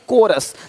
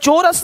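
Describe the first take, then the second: First: The word begins with a k sound. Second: The word begins with a ch sound. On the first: The speaker calls it right. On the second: The speaker calls it wrong. "नहीं"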